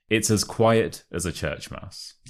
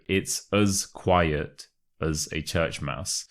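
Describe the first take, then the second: First: Said in the usual way. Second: Slow model pronunciation. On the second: Shown as a demonstration. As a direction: model it slowly for learners, reducing "as" to "uz". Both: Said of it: "the as becomes a us".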